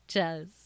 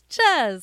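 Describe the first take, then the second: First: The word is said normally, with an 'ee' vowel. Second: The word is said playfully off, with an 'eh' vowel. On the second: "I just call cheese Chez now"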